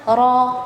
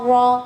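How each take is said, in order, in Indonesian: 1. Bunyi r jelas dengan getaran yang terdengar. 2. Bunyi r teredam dengan lidah melengkung ke belakang. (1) "harusnya ra" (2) "lidahnya terlalu ditekuk"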